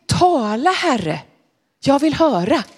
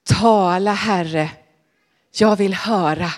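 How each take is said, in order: First: Put-on a touch higher, gently instructing old priest; Eli teaching the words. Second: Put-on a little lower, humbler boy's reply; the boy's answer, 「Tala, Herre」 said low and humbly; Samuel answering. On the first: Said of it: "Och så sa Eli så här". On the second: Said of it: "så sa han".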